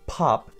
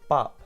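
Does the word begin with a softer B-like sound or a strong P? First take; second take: strong P; softer B. First: The word begins with a strong P sound. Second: The word begins with a softer B-like sound. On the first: The speaker calls it wrong. "It's not pop" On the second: The speaker calls it right. "it's bop"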